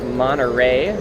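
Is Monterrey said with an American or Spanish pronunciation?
American. It has an American R and forward vowels. The speaker calls it wrong. "the more American pronunciation of Monterey"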